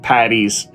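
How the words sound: Said like English 'patties', ending in a z sound. "With my North American accent"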